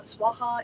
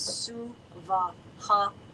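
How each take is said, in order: First: The word is run together in two syllables. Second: The word is said as three separate syllables. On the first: The speaker calls it wrong. "It is not Swaha" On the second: The speaker calls it right. "three separate and distinct syllables"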